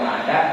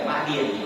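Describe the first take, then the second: First: The second vowel is an 'a' sound. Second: The second vowel is an 'i' sound. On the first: "boleh dibaca madan" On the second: "boleh dibaca madin"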